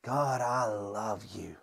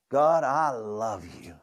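First: Whispered, slow and much softer "God, I love you"; from deep inside. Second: Slow, tender "God, I love you"; slow sincere prayer. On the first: Pastor leading the congregation, whispering from deep inside. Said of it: "let it come from deep down inside of you". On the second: Pastor leading the congregation in prayer, slow and tender. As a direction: lead the room, drawing "God, I love you" out slowly. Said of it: "could you say that with me". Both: Shown as a demonstration.

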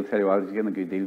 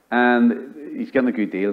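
First: Quick, much softer throwaway aside; a hushed, hurried aside about the motorcycle buyer. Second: Said in the usual way. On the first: Real, not acted. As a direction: toss it off under your breath, fast.

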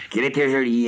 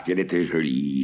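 First: Plus aigu, plus fort, en extase; s'exclamer, ravi, sur « était »; émerveillé. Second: Said in the usual way. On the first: A narrator's reading. Répétition exaltée de l'exclamation. (exclamation émerveillée)

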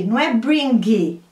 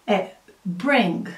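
First: "bring" with an added vowel at the end; wrong extra final I. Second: "bring" ending dry on G, no vowel; clean final G. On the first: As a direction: let a vowel trail after "bring". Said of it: "Não tem um I". ("bring" com I no final, errado) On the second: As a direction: stop "bring" at the G. ("bring" terminando seco no G) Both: Shown as a demonstration.

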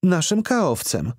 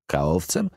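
First: High, slow woman's voice; blonde lady's answer. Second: Said in the usual way. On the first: A narrator's reading. Organizer names their activities officer, slowly in a high voice. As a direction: spell it out slowly.

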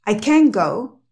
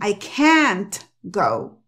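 First: "can" said as ken with a short E; E sound in can. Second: "can't" said slowly with the T sounded; wrong pronunciation, slow. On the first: Teacher showing the E sound before a verb. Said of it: "Recuerda, es un sonido de E". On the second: Teacher slowly showing what they don't say. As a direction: stretch "I can't go" with a full T. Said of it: "Ellos no dicen". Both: Shown as a demonstration.

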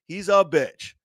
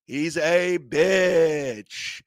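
First: Said in the usual way. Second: Slow emphatic. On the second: Real, not acted. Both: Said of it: "repeated for emphasis".

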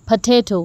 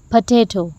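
The two takes are said the same way.

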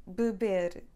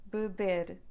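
Both takes have the same delivery.

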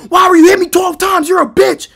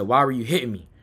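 First: High, loud, fast accusing yell; acted-out outraged shout. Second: Low, subdued asking; calmed-down question, retold. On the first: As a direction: reenact an uncalmed, furious outburst. Yells until told to calm down. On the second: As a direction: ask softly after being soothed. Same question after being calmed.

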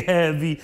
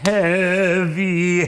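First: Said in the usual way. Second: Heavy, weighted beat; sung heavy with weight. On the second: Shown as a demonstration. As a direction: lean hard into heavy, louder. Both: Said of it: "the upbeat is a heavy beat".

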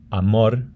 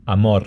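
First: Amor ending in a rolled R; trilled final R. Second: Amor ending in a light tapped R; flapped final R. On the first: Teacher shows one option for final R, trilled. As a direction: roll the R that ends amor. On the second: Teacher shows other option for final R, flapped. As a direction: tap the R that ends amor. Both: Shown as a demonstration. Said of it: "final can be a flapped or trilled".

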